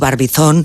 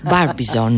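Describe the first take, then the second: First: It is said with a Spanish pronunciation. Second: It is said with an American pronunciation. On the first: "Diremos, como lo acabas de decir tú" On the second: "Y en americano sería"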